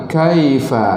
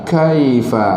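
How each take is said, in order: The two takes are said the same way.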